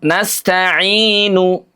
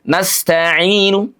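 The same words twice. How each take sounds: First: The final vowel is sounded fully and clearly. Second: The final vowel is very thin, quick and faint. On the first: "Kalau utuh" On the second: "Sepertiganya lebih tipis lagi, lebih cepat lagi"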